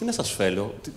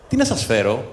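First: The last word is said with an l sound. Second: The last word is said with an r sound. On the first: The speaker calls it wrong. "όχι όπως μίλησα εγώ τώρα" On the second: The speaker calls it right. "με κανονική προφορά"

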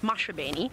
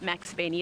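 First: The middle consonant sounds like sh. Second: The middle consonant sounds like ks. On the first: The speaker calls it right. "it's Mashabeni" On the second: The speaker calls it wrong. "it sounds like you say Maxabeni, but it's not Maxabeni"

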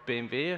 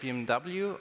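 First: The letters are spoken with German letter names. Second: The letters are spoken with English letter names.

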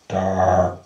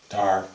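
First: The word is said with strong, heavy emphasis. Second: The word is said plainly, without extra emphasis.

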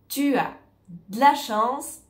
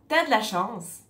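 First: 'Tu as' is pronounced as two full words. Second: 'Tu as' is contracted into one short syllable. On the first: "Si je dis tu as de la chance" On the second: "on va plutôt dire t'as de la chance"

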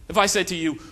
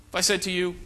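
Both takes have the same delivery.

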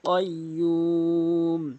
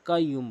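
First: It starts with a deep back q sound. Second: It starts with a light front k sound. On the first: The speaker calls it right. "কয়ুম বলতে হবে, কফটি জিব্বার গোড়া উপরে তালু থেকে" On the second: The speaker calls it wrong. "এখানে কফের জায়গায় কাফের উচ্চারণ করে থাকে"

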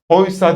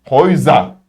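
First: The middle consonant is a voiceless s sound. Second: The middle consonant is a voiced z sound. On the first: The speaker calls it wrong. "Oysa değil" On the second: The speaker calls it right. "Sen S'yi Z diye okumak zorundasın"

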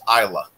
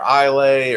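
First: The word ends with a 'luh' sound. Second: The word ends with a 'lay' sound. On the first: The speaker calls it right. "but it's pronounced Isla" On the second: The speaker calls it wrong. "Everybody says Islay"

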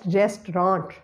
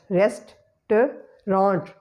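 First: The word is said with two syllables. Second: The word is said with three syllables. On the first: "we have to eliminate the second syllable word and we will pronounce it as restaurant" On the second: "It is comprising of three syllables"

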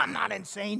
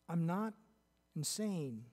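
First: It is said in a sharp, confrontational tone. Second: It is said in a calm, matter-of-fact tone. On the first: The speaker is defiantly challenging the listener. The speaker calls it wrong. "He wasn't coming up against Festus face-to-face. ... He didn't say it that way" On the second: The speaker is respectfully stating a fact. The speaker calls it right. "I kind of get the feeling he said this matter-of-factly"

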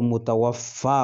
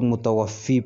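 First: The word ends in an 'a' sound. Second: The word ends in an 'ee' sound. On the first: The speaker calls it right. "वो मुतवफ़्फ़ा होता है" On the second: The speaker calls it wrong. "जो गलत है, सरासर गलत है"

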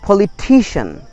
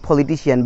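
First: The stress falls on the 'ti' syllable. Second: The stress falls away from the 'ti' syllable. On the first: The speaker calls it right. "but the right pronunciation is politician" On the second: The speaker calls it wrong. "We pronounce it politician"

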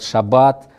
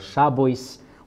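First: The stress falls on the last syllable. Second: The stress falls on the first syllable. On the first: "сейчас ударение на последний слог" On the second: "а на ашкеназском было «шабойс», ударение было на предпоследний слог"

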